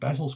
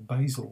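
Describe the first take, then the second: First: Basil is said the British way. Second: Basil is said the American way.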